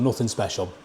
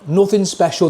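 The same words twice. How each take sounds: First: "Nothing special" said lower and softer, falling away; a muted afterthought; quiet repeat. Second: NOTHING said higher and louder, falling at the end; a punchy summing-up line; emphatic verdict. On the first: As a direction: echo "Nothing special" to yourself under your breath. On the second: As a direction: land "Nothing special" as a firm verdict. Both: Real, not acted. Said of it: "That's probably what I'll say about this one".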